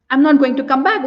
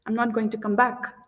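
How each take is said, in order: First: Firm refusal. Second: Much softer, dropped, final refusal; quiet refusal. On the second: Woman turning away the man, softly final. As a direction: let it fall away to a cold hush. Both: Acted. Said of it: "put in more sarcasm".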